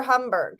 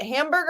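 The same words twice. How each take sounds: First: "Hamburg" with first vowel as in "hum"; alternate pronunciation. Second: "Hamburg" with a flat A as in "ham"; English pronunciation. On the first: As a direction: say "Hamburg" like hum plus burg. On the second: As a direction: say "Hamburg" like ham plus burg. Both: Shown as a demonstration. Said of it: "heard it pronounced both ways".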